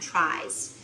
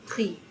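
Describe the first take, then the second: First: The word is given an English pronunciation. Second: The word is given a French pronunciation. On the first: "They call them tries" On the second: "I don't know what the French pronunciation would be"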